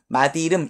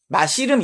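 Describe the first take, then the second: First: The final consonant links as a d sound. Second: The final consonant links as an s sound. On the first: The speaker calls it right. "마디이름 이러죠" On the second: The speaker calls it wrong. "맛이름 이러지 않죠"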